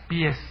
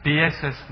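First: Pies, one clipped syllable; correct form pies. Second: Pieses, said with the extra syllable, pie-ses; wrong form pieses. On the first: Judge gives the lawyer the right plural, pies. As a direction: pies said short, no -es. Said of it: "Pieses no". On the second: Judge corrects the lawyer's wrong plural, pieses. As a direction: Pieses with an added -es. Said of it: "Pieses no, pies". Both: Shown as a demonstration.

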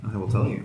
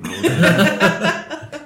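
First: Said in the usual way. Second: Very slow and high, laughing through it; slow laughing drawl. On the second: Shown as a demonstration. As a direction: stretch it out slowly while giggling. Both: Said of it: "repeats line two ways".

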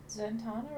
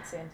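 First: Zatanna with an AH in the middle; broad-A Zatanna. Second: [name] with the A of "tan" in the middle; flat-A [name]. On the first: Asking co-host about the name, broad-A Zatanna. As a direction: say Zatanna as za-TAH-na. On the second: Offering co-host the other option, flat-A [name]. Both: Shown as a demonstration. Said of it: "or is it [name]".

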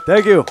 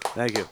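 First: High-pitched pleased thanks; high thank you. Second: Said in the usual way. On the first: Acted. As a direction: squeak out the thanks.

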